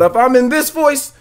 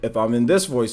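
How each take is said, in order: First: It is said in a showy presentation voice. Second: It is said in a plain everyday voice. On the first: The speaker is in entertainment mode. "this is my presentation voice" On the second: The speaker is not trying to joke. "which is how I was pretty much all day yesterday"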